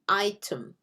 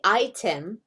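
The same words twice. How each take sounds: First: The second vowel is a reduced schwa sound. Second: The second vowel is a clear 'e' sound. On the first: Most US speakers say it this way. "most U S English speakers say item. That schwa sound" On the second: Only some people say it this way. "Some people will say item"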